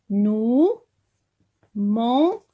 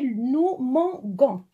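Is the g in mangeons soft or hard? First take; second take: soft; hard. First: The g is soft, like the s in measure. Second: The g is hard, like the g in go. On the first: The speaker calls it right. "on garde le, le E" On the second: The speaker calls it wrong. "Si on enlève le E, on va le prononcer"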